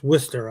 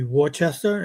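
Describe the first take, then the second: First: It is said the Boston way, shortened. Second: It is said as spelled, every syllable sounded.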